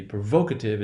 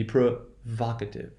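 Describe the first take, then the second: First: "provocative" mispronounced as "pro-VOKE-ative"; wrong long O. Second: "provocative" as "pro-VAHK-ative"; short open vowel in the stressed syllable of "provocative"; correct short O. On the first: Teacher showing what it will not be, long O kept. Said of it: "It's not gonna be". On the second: Teacher giving the right form, short stressed O. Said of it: "it's gonna be". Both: Shown as a demonstration.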